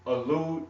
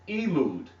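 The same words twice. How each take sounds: First: Said in the usual way. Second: "Elud" with a long ee opening, falling; misheard as "Elud". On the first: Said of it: "When I say now". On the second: Shown as a demonstration. Teacher quoting a listener's complaint, "Elud" said with an ee. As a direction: start "Elud" on a clear ee and let the pitch drop. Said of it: "it sounds like you're saying".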